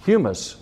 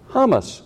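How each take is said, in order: First: "Humus" said as HYOO-mus, soil; wrong pronunciation. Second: "Hummus" said HUM-us, higher; right pronunciation. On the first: Preacher first says "Humus" the wrong way, as HYOO-mus. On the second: Preacher corrects himself, saying "Hummus" as HUM-us. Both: Shown as a demonstration.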